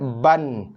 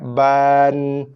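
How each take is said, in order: First: The vowel is clipped very short and rushed. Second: The vowel is drawn out far too long. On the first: "Tak boleh cepat sangat" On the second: "Tak boleh juga lambat sangat, panjang sangat"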